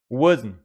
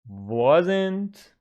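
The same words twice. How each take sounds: First: The word is said in a reduced, clipped way. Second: Every sound of the word is clearly pronounced. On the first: The speaker calls it right. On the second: The speaker calls it wrong.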